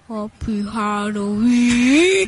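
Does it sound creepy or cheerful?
creepy. It is said in a creepy, spooky way.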